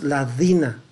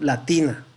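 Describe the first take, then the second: First: The middle consonant sounds like a d. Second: The middle consonant sounds like a hard t. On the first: The speaker calls it wrong. "no es ladina" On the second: The speaker calls it right.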